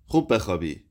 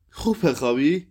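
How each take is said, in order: First: Said in the usual way. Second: خوب بخوابی thrown back higher, rising, scornful; bitter, rising echo of "sleep well"; mocking echo. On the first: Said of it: "شب بخیر عزیزم". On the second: A narrator's reading. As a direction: repeat his words back in disbelief.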